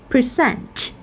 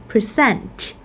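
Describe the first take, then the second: Both takes have the same delivery.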